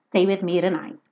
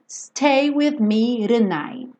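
First: Quick "tonight" said as renight; tapped tonight. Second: "tonight" said with a flapped r sound, slow; tonight as renight. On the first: Teacher repeating the tapped "tonight". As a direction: tap the t lightly. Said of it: "mas ela fala tonight". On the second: Teacher showing the singer's "tonight". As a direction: soften the t of "tonight" to a tap. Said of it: "Ela poderia falar tonight". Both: Shown as a demonstration.

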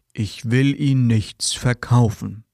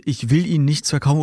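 First: Slow, drawn-out salesman line; mock salesman. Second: Said in the usual way. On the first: Salesman assures the customer on the phone, slow mock sincerity. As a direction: lightly play the pushy caller pretending not to sell. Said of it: "Was sagen Verkäufer stattdessen?". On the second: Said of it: "bitte niemals diesen Satz als Antwort benutzen".

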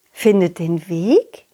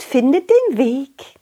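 First: Low, slow puzzled echo; wondering aloud; puzzled question. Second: Put-on high girl voice; chirpy little girl; cheerful butterfly girl. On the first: Acted. Clown repeats puzzled.

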